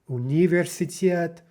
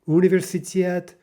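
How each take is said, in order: No difference in how they are said.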